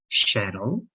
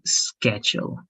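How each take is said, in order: First: The word starts without a hard k sound. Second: The word starts with a strong k sound. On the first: This is a regional pronunciation. "some people and in some regions they call this also like shuttle" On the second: This is the American pronunciation. "this is going to be like a very strong k"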